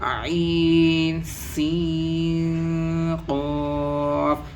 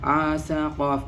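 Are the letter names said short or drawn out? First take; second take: drawn out; short. First: The letter names are drawn out and lengthened. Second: The letter names are said short, without lengthening. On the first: The speaker calls it right. "खींच खींच के पढ़ना है" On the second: The speaker calls it wrong. "ये गलत हो जाता है"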